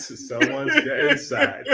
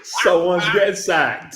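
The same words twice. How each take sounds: First: Slow, giggling repeat; laughing, higher. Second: Said in the usual way. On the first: Shown as a demonstration. Repeating the joke about the call, laughing slowly. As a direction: savour it with a laugh.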